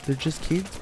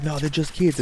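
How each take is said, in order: First: Put-on KIDS rising as a question; softer echo, tune lifting on KIDS. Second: Said in the usual way. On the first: Storyteller echoing the girlfriend's words, questioning rise on KIDS. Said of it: "At this point, I'm like". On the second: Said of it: "And she's like".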